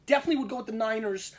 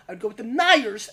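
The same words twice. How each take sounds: First: "Niners" as in forty-niners, said briskly; Niners with middle n. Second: "Niners" said as "NY-ers", punched loud; Niners without middle n. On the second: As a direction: drop the middle n in "Niners" and stress it hard. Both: Real, not acted. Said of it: "Not the forty-niners".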